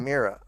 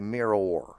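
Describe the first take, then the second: First: The ending is reduced, sounding like a name. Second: The ending is fully and carefully pronounced. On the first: It could be heard as a person's name. The speaker calls it wrong. "I don't want people to think I mean someone named Mira" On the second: It clearly names the reflecting object. The speaker calls it right. "I try to overpronounce"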